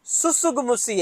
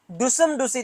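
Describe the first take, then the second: First: "सुसुगमुसी" with a clear dental स, the t left silent, said softly; correct pronunciation. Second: "डुसम डुसी" mumbled softly with a retroflex ड, mocking careless students; mock wrong pronunciation. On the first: Shown as a demonstration. Teacher giving nursing students the correct name, softly and clearly. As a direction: say "सुसुगमुसी" as the teacher's correct form, four clean syllables with no t. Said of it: "हमारे अनुसार". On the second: Teacher mocking students' wrong name for tsutsugamushi, said softly. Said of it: "आप जैसे नालायक बच्चे क्या बोलते हैं?".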